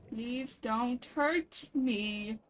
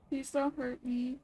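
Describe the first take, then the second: First: Very slow, stretched out plea; drawn-out plea to a creature. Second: Said in the usual way. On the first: Pretend. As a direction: drag every word out gently. Pleading with a creature.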